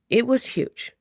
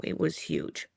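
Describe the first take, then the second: First: Higher and louder, amazed; awed. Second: Hushed, breathless whisper. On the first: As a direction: blurt out the size in awe. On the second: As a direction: drop to a whisper of awe. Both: Retold or imitated. Awed by the owl's size.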